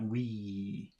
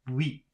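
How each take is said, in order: First: The word is said longer and drawn out. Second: The word is said very short. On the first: The speaker calls it wrong. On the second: The speaker calls it right. "it's very short"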